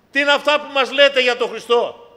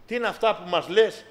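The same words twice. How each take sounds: First: Δυνατή, ψηλή ερώτηση, τονίζει το «λέτε»; το πετάει δυνατά στο εκκλησίασμα; κηρυγμένη ερώτηση. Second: Said in the usual way. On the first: Acted. Rhetorical question at full force. (φωνάζει την ερώτηση με πάθος)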